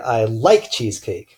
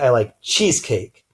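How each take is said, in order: First: The stress falls on the word like. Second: The stress falls on the word cheesecake. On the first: The speaker likes it rather than hating it. "meaning I like it versus hating it" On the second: The speaker likes this cake rather than another cake. "I like cheesecake versus liking carrot cake"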